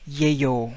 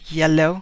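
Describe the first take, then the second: First: The middle consonant is a Y sound. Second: The middle consonant is a clear L sound. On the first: "a Spaniard would say it yayo" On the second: "We have double L there"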